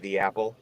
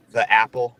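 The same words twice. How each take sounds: First: "the apple" with THE as "thee". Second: "the apple" with THE as a short "thuh". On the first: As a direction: rhyme "the" with "see" before "apple". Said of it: "we should say, like". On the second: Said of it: "which is a bad way to say it". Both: Shown as a demonstration.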